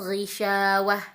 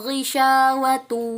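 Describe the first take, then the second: First: The word ends with an h sound. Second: The word ends with a t sound. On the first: The reading stops at this word. "Jadi wah langsung ya" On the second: The reading continues into the next verse. "tetapi tetap dibaca ta"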